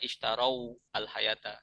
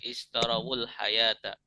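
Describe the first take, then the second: First: The first word ends in 'au' before the next. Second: The first word links into the next with 'wul'. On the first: The speaker calls it wrong. "tidak dibaca ishtarau al-hayata, sulit" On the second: The speaker calls it right. "kalau disambungkan dengan al-hayata"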